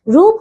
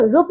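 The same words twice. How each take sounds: First: रूप with a long "oo": roop; correct pronunciation. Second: रूप with a short vowel: rup; mispronunciation. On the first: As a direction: draw out the vowel in रूप. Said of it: "रूप होता है बच्चों". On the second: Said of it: "रूप नहीं होता". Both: Shown as a demonstration.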